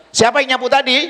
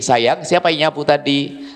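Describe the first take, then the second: First: Higher, pressing demand on tadi; mock stern mother. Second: Gentle mother. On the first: Mother demanding who swept, mock stern. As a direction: interrogate like an annoyed mom. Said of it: "Sang ibu langsung". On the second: Mother gently asking her child who swept, tender. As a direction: ask sweetly, no blame. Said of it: "Kenapa Anda tidak berkata begini". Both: Shown as a demonstration.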